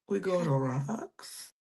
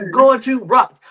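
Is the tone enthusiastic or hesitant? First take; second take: hesitant; enthusiastic. First: It is said with hesitant, unsure doubt. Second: It is said with eager enthusiasm.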